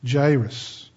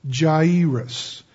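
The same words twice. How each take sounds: First: Jairus run together quickly as "Jai-rus". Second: Jairus drawn out, the a and i sounded apart as "Jah-ee-rus"; slow Jairus. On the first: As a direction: blend the a and i of Jairus into one "eye" sound. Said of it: "if you say it quickly". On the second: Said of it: "if you say it slow". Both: Shown as a demonstration.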